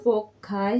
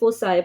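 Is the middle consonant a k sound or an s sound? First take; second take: k; s. First: The middle consonant is a k sound. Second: The middle consonant is an s sound. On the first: This is the British pronunciation. "British के according देखें तो फोकाई है" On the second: This is the American pronunciation. "अगर American accent देखें तो उसमें हम ये फोसाई पढ़ते हैं"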